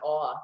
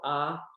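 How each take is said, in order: First: The vowel is a rounded aw sound. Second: The vowel is an open ah sound. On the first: This is the older or Orthodox pronunciation. "it was an awe, that little t, but it's not awe anymore" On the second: This is the modern pronunciation. "we say in modern Hebrew, ah"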